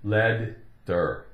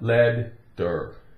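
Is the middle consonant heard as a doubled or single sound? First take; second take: doubled; doubled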